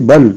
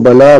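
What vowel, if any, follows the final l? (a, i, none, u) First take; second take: none; a. First: The word ends on the l, with no vowel. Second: The l is followed by an a vowel. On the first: The speaker calls it right. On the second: The speaker calls it wrong.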